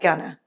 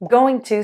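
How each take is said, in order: First: The words blend into a quick 'gonna'. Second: Both words are said fully and clearly.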